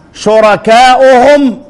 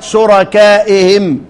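First: "شركائهم" drawn out as shurakaa'uhum; damma form. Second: "شركائهم" said slowly as shurakaa'ihim; slow "شركائهم" ending on -i-him; ya form. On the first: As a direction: slowly sound "شركائهم" with u after the hamza. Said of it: "رسمت شركائهم". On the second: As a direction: sound "شركائهم" with i after the hamza. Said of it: "بالياء". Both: Shown as a demonstration.

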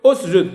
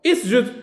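First: "أسجد" as usjud, with u before the s; initial damma. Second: "اسجد" as isjud, with i before the s; initial kasra. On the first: Teacher giving the other start, "أسجد" begun with u. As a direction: open "أسجد" on a rounded u. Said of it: "بالضم". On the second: Teacher trying one possible start, "اسجد" begun with i. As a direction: open "اسجد" on i, as in iqra. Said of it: "بمعنى إي، كاقرأ". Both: Shown as a demonstration.

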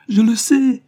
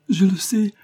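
First: Even higher and louder, tears breaking through; the second je le sais climbs into a sobbing wail, sais hit hard; desperate daughter crying out even louder; tearful cry. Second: High, loud crying protest; weeping daughter, high and loud; tearful insistence. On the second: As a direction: she bursts into tears as she insists. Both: A narrator's reading. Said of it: "en versant d'abondantes larmes".

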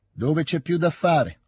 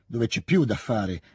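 First: Slow, higher echoed question with a smile; ripetizione sorridente. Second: Said in the usual way. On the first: A narrator's reading. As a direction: repeat it back slowly, amused and smiling. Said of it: "ripeté Denisov sorridendo". (domanda ripetuta lentamente, sorridendo)

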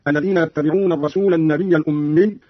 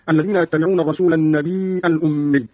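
First: Said in the usual way. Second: النبي with long "ii" then hamza; hamza in place of ya. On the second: Shown as a demonstration. Teacher shows Qalun's reading, النبي said "an-nabii'a". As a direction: say النبي as "an-nabii'a" with a glottal stop. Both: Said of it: "قرأ قالون بهمز الياء هكذا".

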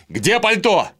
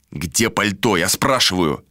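First: High, urgent call from another room; shouted question. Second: Said in the usual way. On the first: A narrator's reading. Vilar calling from the wardrobe, shouted demand. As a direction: call it out at a raised pitch. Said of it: "прокричал оттуда".

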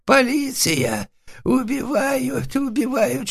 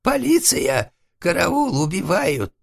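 First: Very high, drawn-out bleat for help; goat-like bleating. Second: Very high panicked cry for help; hoarse wail. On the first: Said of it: "заблеял козлом". (истошно блеять козлом) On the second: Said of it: "и хрипло простонал". (истошный стон о помощи) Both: A narrator's reading.

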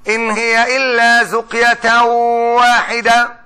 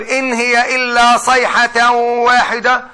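First: Slow recitation saying زقية with a z; reading with zuqya. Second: Slow recitation saying صيحة with a clear s and ḥ; reading with sayha. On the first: Teacher reciting a variant reading to students, slow and measured. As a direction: recite إن هي إلا زقية واحدة slowly, زقية with z and q. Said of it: "واحد قاعد بيقول لي". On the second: Teacher reciting the other reading to students, slow and measured. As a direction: recite إن هي إلا صيحة واحدة slowly, صيحة with s and a throaty ḥ. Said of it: "رحت مثلًا على بلد ثانية وبقول". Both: Shown as a demonstration.

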